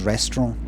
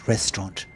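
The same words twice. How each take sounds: First: The final T sound is dropped. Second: The final T sound is clearly pronounced. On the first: "I've got a feeling it's restaurant" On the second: "Because I think he likes to pronounce his letters. So if he was going to say it, he would say restaurant"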